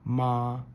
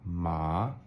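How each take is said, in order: First: The pitch stays high and level. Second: The pitch rises toward the end. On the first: "with the flat tone is ma" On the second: "it goes up"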